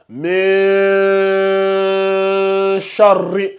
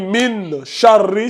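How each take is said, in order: First: The n merges into the following r sound. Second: The n is pronounced clearly before the r. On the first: The speaker calls it right. "tu ouvres légèrement la bouche" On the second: The speaker calls it wrong. "Quand tu dis mine, charri, c'est faux. C'est comme si c'était un izhar"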